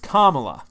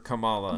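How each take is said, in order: First: The name begins like 'Carmel'. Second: The name does not begin like 'Carmel'. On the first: The speaker calls it right. "It's Kamala" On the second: The speaker calls it wrong. "You keep calling her Kamala"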